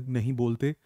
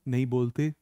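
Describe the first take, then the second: Both takes have the same delivery.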